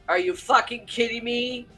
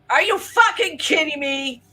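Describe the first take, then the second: First: It is said in his own natural voice. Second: It is said imitating J D's voice.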